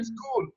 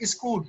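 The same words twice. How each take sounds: First: The word starts directly with the s sound. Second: A short vowel is added before the s. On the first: The speaker calls it right. "but actually this is school" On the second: The speaker calls it wrong. "we add Hamza, Alif, or A before S somehow ... we say school"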